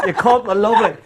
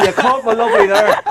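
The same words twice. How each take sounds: First: Said in the usual way. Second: High delighted exclaim; thrilled it caught on; excited. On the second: Real, not acted. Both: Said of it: "that's a first on the banter show".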